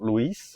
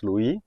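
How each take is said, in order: First: The final consonant is pronounced aloud. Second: The final consonant is left silent. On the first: The speaker calls it wrong. "in French you never say the last letter. So it's not Louis" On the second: The speaker calls it right. "it's Louis"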